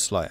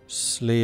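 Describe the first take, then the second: First: The vowel sounds like 'eye'. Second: The vowel sounds like 'ee'. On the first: This is the English pronunciation. "But in English it's sly" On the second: This is the Irish pronunciation. "in Irish, the pronunciation is Slee as in slit"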